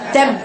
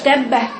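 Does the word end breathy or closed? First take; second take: closed; breathy. First: The final b is closed off with no breath. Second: The final b is released with a puff of air. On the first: The speaker calls it right. "تقفلي تقفلي تب تب" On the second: The speaker calls it wrong. "مش تبه فش هوا"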